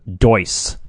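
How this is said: The name is said with an American accent. "I'm gonna just go with uh, pure American here"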